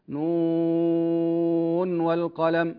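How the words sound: The first word runs straight into the second. The speaker calls it right. "نظهر النون من غير سكت ومن غير فصل بينها وبين الواو"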